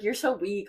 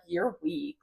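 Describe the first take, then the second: First: Light, bubbly "you're so weak"; mock playful teasing. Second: Said in the usual way. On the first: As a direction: tease it as a friendly joke. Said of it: "it wasn't like, "Hi, like". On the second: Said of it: "It was like".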